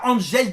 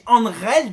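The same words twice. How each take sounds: First: Angel is pronounced with an English-style soft g. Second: Angel is pronounced with a Spanish-style throaty h. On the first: The speaker calls it wrong. "on dit pas Angel Di Maria" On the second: The speaker calls it right. "on dit Angel Di Maria"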